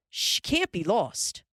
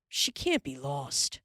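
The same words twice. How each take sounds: First: "She can't be lost" higher and louder, pressing "can't"; insisting. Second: Said in the usual way. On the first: A narrator's reading. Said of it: "Pa insisted". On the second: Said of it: "Pa said".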